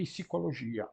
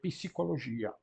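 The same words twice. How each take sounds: First: A short vowel separates the p and the s. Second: A short vowel separates the p and the s.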